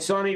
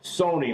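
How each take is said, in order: First: The first syllable has a short 'u' sound. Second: The first syllable has a long 'o' sound. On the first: The speaker calls it wrong. "Everybody was saying Sonny, but it's not Sonny" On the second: The speaker calls it right. "it's Sony, like the T V"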